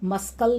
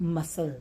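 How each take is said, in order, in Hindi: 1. बीच में k की आवाज़ सुनाई देती है। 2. बीच में k की आवाज़ सुनाई नहीं देती। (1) "यहाँ पर हम इसको मस्कल नहीं पढ़ते" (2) "इसको क्या पढ़ते हैं, मसल"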